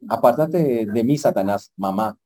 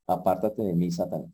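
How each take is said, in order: First: Mock rebuke to mom. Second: Jesus rebuking Satan. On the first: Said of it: "alguien me dijo". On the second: Acted. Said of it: "Jesús se da cuenta donde le dice".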